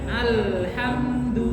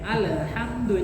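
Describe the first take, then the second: First: The vowelless consonant is held without a bounce. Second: The vowelless consonant bounces with an extra vowel. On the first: The speaker calls it right. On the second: The speaker calls it wrong. "itu kan tidak boleh"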